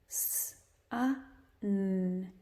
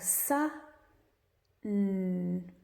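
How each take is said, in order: First: Each of the three sounds is said separately. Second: The first two sounds are joined, then the last.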